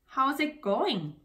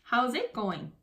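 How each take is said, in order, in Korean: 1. 'it'은 강세를 받지 않아요. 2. 'it'에 강세가 있어요.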